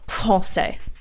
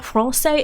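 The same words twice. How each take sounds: First: The R is said with the French sound. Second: The R is said without the French sound. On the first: The speaker calls it right. "you have to pronounce the R as like français" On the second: The speaker calls it wrong. "It's not français"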